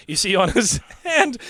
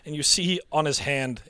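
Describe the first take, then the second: First: Higher, giggling retake; trying not to crack up; laughing through narration. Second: Said in the usual way. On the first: Real, not acted. Narration retaken while still laughing.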